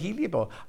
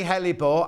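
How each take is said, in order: First: It is said as hel-i-o-bore. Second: It is said as hel-le-bore. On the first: This is how the presenter says it. The speaker calls it wrong. "I say heliobore" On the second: This is how the viewer says it. The speaker calls it right. "you say hellebore"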